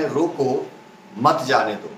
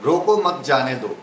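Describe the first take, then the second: First: "रोको" alone, pause, then "मत जाने दो" with weight on "मत"; comma after रोको. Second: "रोको मत" run together in one breath, pause only before "जाने दो"; comma after मत. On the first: Teacher showing the comma placed after "रोको", pause before "मत जाने दो". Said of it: "या फिर इसको यूं कहें". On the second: Teacher showing the comma placed after "मत", pause before "जाने दो". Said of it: "बीच में एक comma". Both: Shown as a demonstration.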